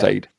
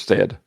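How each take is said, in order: First: The vowel is long, as in 'bay'. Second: The vowel is short, as in 'bed'. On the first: "instead of" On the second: "sometimes we pronounce it as stead"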